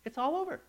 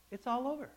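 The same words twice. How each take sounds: First: Said in the usual way. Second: It's all over, repeated softer; softer echo. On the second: Acted. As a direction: let it fade away as an echo.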